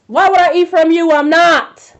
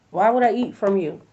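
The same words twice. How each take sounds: First: Louder and higher, outraged at the offer; loud indignant refusal. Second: Said in the usual way. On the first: Retold or imitated. Refusing a stranger's homemade sweets, loud and indignant. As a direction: throw the question back, half shouting.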